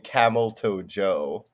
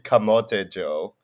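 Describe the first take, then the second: First: The first word sounds like English 'camel toe'. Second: The first word is said as three syllables, ca-mo-te. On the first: The speaker calls it wrong. "So I've had people call me Camel Toe Joe" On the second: The speaker calls it right. "But it's actually Camote Joe"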